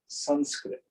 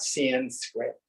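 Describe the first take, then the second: First: The first vowel sounds like the 'u' in 'but'. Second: The first vowel is not the 'u' of 'but'. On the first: The speaker calls it right. "the short A is pronounced like the U in but" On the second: The speaker calls it wrong. "So it's not Sanskrit"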